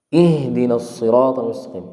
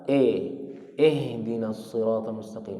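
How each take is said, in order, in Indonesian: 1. Vokal pertama adalah bunyi 'i' yang jelas. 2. Vokal pertama terdengar seperti 'e'. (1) "I yang benar" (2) "Tadi bacanya bagaimana?"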